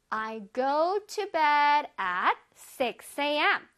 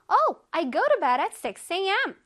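First: It is said at a normal speed. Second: It is said a little faster.

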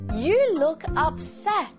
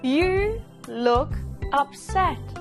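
First: It is said at normal speed. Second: It is said slowly.

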